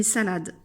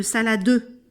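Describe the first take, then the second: First: Said in the usual way. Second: "salade" as sa-la-DEU, final E voiced; wrong "saladeu" with a full last vowel; sounded final E. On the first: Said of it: "On dit une salade". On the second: Shown as a demonstration. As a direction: say "salade" in three syllables ending in "deu". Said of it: "On ne dit pas une salade".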